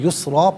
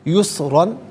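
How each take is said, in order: First: The word ends with a long 'a' sound. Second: The word ends with an 'an' sound. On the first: The reader stops at this word. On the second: The reading continues without stopping.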